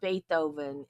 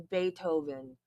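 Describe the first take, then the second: First: The 'th' is said as a TH sound. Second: The 'th' is said as a plain T sound. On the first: The speaker calls it wrong. "it's not Beethoven" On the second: The speaker calls it right. "it's Beethoven"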